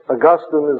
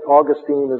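First: Augustine is pronounced the way the saint's name is. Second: Augustine is pronounced the way the Florida city is. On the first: It names the theologian. "Saint Augustine is in heaven" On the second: It names the place in Florida. "Saint Augustine is in Florida"

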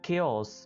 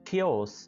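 The two takes are said the same way.

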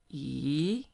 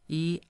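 First: The pitch rises from mid to high. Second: The pitch stays high and level. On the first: "the second tone is going up" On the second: "high flat one"

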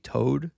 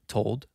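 First: The L sound at the end is dropped. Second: The L sound at the end is pronounced. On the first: "being said like Todd, which I guess is maybe toad" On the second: "which to me sounds like I'm saying the L"

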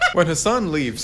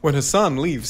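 First: It is said in a put-on Scottish accent. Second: It is said in the speaker's ordinary accent.

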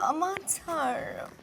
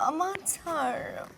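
First: It is said in a coy, flirtatious voice. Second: The same.

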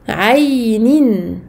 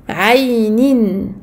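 No difference in how they are said.

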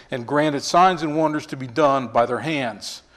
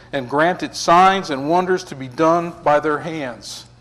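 Both takes have the same delivery.

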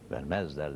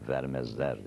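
First: The stress is on the middle syllable. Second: The stress is on the first syllable. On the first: The speaker calls it wrong. "Vermezler denmez" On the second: The speaker calls it right. "vermezler denir diye telaffuz edilir"

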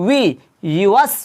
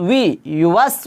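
No difference in how they are said.

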